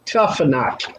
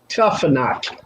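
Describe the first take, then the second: First: The middle consonant is an F sound. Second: The middle consonant is an F sound.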